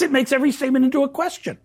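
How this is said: The voice falls at the end. The speaker is stating it plainly. "And you say yes"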